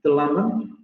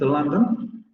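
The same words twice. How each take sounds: No difference in how they are said.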